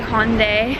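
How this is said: It is said the American way. "you guys say Hyundai"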